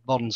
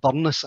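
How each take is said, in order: First: The name is said as one syllable. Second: The name is said as two syllables. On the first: This is the common shortened form. "some people will just contract it to Burns" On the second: This is the original form. "to give it its proper pronunciation"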